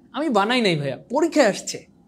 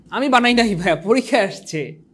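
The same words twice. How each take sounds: First: Mock innocent voice. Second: Said in the usual way. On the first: Teacher jokingly repeats to students he didn't write it, mock innocent voice. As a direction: play it like a cheeky kid pleading innocence.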